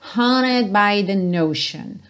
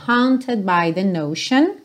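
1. O T em haunted é quase mudo. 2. O T em haunted é pronunciado claramente. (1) "esse T dela quase não soa" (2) "se você quiser falar hunted by the notion, no problem"

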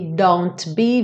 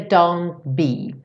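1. O T é claramente solto antes do B. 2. O T é engolido quando os lábios se fecham.

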